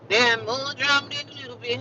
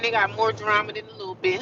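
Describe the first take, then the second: First: Higher, put-on emphatic voice; played-up repeat. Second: Said in the usual way. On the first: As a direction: say it over in a hammed-up high voice. Repeats it, playing it up.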